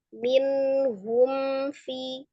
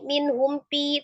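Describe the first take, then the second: First: The second word starts with an f sound. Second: The second word starts with a p sound. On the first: The speaker calls it right. "tapi minhum fi" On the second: The speaker calls it wrong. "bukan pi"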